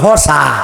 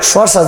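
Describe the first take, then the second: First: The word begins with an h sound. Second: The word begins with an sh sound. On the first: "শশারে বলি হসা" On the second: "আমরা কিন্তু শশা বলি না"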